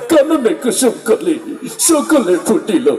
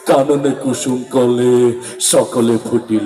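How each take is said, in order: First: It is recited in a crying, tearful way. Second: It is recited in a frightening, menacing way. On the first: "ও আবার কান্তি কান্তি বলতেছে" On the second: "আরো ভয়ঙ্কর ভাবে বললো"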